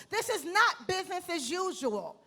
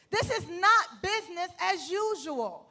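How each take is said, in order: Both takes have the same delivery.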